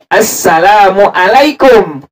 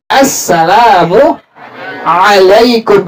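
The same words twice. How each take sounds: First: "assalamualaikum" with a plain glottal hamzah, slowly. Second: Very slow, "Assalamualaikum" with a throaty ain. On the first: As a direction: show the wrong hamzah onset in "assalamualaikum". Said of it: "Kalau hamzah". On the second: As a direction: show the correct ain in "Assalamualaikum". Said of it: "Ini ain". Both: Shown as a demonstration.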